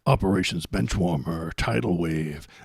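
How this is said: It is read in a deep, dramatic trailer voice. The speaker calls it right.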